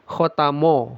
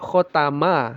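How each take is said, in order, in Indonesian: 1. Suku kata m terdengar tebal, seperti mo. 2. Suku kata m terdengar tipis, seperti ma. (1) "sering terdengar khotamo, ... mo jadinya" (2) "harus hati-hati kita baca khotama"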